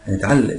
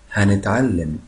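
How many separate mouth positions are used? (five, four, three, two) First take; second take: two; four. First: The word is compressed into two mouth positions. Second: The word is blended into four mouth positions. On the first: "ممكن اقولها على 2 بس دي صعبه شويه" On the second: "بنطق بطريقة الـ4 اوضاع"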